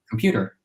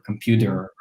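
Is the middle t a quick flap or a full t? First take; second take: flap; full t. First: The middle t is a quick flap. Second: The middle t is a full t. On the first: The speaker calls it right. "You use a thrill" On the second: The speaker calls it wrong. "I don't say computer"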